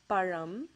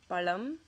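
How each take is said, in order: First: The middle consonant is a ra-like sound. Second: The middle consonant is a plain L sound. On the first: The speaker calls it right. "it ends with that ra sound" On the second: The speaker calls it wrong. "substitute the ra sound for la"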